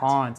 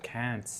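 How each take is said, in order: First: It is said with a British accent. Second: It is said with an American accent.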